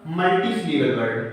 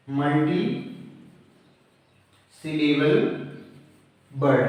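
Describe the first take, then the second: First: Said in the usual way. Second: "multi syllable word" word by word with long pauses; broken into parts. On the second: Shown as a demonstration. Teacher dictating a term to students, "multi syllable word" word by word.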